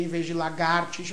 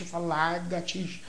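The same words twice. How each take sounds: First: Said in the usual way. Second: "largatixa" with r moved to the first syllable; "largatixa" dito com o r trocado; swapped sounds. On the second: Shown as a demonstration. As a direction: say "largatixa", not lagar-.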